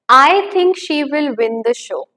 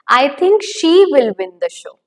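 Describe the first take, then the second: First: The stress falls on the word I. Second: The stress falls on a word other than I.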